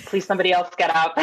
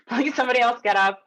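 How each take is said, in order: First: Said in the usual way. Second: Laughing through a mock plea; half-laughing, higher mock plea. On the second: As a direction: giggle it out as a silent prayer. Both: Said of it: "And I'm thinking".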